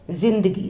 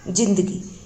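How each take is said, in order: First: The word begins with a z sound. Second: The word begins with a j sound. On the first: "जा हो जाएगा" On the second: "यदि हम ये नहीं लगाएंगे तो इसका उच्चारण होगा"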